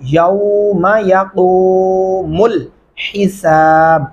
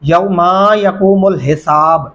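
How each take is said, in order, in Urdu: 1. پہلے لفظ کے بعد والی آواز کو چھوٹا رکھا جاتا ہے۔ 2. پہلے لفظ کے بعد والی آواز کو لمبا کھینچا جاتا ہے۔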